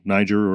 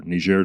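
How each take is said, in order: First: Said in the usual way. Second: Niger pronounced nee-ZHAIR, as in French; French-style Niger, ending like "air"; French pronunciation. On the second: Shown as a demonstration. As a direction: give Niger a French zh, not an English j. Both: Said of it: "the French pronunciation".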